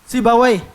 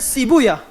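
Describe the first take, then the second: First: The name ends with a 'wayh' sound. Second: The name ends with an 'uyah' sound. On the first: This is the form the language scholars prefer. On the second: This is the form hadith scholars use.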